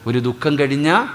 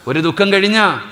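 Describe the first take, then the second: First: Said in the usual way. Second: കഴിഞ്ഞ lifted high and loud; preacher stressing the teaching, louder; louder high repeat. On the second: Shown as a demonstration. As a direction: restate ഒരു ദുഃഖം കഴിഞ്ഞ with force.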